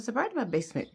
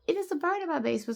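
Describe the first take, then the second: First: Said in the usual way. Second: Panicked. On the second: Retold or imitated. Panicked report of bird.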